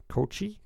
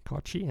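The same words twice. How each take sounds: First: Kochi as koh-KOH-chee, rising; unsure pronunciation. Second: Kochi as KAH-chee, rising; second try. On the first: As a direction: Kochi tried with long o, questioning rise. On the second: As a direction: Kochi retried with short a, softer. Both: Real, not acted. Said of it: "I might be pronouncing it wrong".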